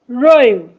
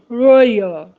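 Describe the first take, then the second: First: The word is said without an added y glide. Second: The word is said with an added y glide. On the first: The speaker calls it right. "So be careful not to add ye. Royal" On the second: The speaker calls it wrong. "not royal"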